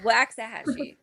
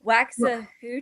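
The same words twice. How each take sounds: First: "Waxahachie" repeated as "wax-a-HATCH-ee"; corrected pronunciation. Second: "Waxahachie" tried as "wax-a-HOO-chee", questioning; unsure mispronunciation. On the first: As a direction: echo "Waxahachie" with "hatch", not "hooch". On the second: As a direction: guess at "Waxahachie" with a wrong "oo" in it. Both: Shown as a demonstration. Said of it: "What is it called?".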